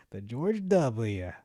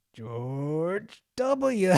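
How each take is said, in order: First: "The George W." said very slowly, leaning on "George"; slow emphatic name. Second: Higher, louder put-on voice saying "George W."; mock answer in a put-on voice. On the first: Shown as a demonstration. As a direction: drag out "The George W." with weight on "George". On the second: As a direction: say "George W." as a cartoonish imitation. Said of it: "can you say this".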